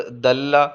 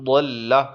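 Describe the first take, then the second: First: دلہ started with a plain dental د; دال sound. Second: ضلہ started with a heavy, full-mouthed ض; ضلہ with a heavy d onset; ضاد sound. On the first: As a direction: say دلہ with a light d. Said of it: "دال کے ساتھ". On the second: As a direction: say ضلہ with a thick ض. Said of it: "داد کے ساتھ ضلہ". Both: Shown as a demonstration.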